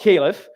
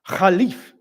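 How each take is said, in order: First: The word is given the usual English pronunciation. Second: The word is given an Arabic-style pronunciation. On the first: "that's what we English speakers usually say" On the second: "I can't pronounce it"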